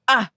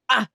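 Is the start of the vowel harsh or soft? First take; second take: harsh; harsh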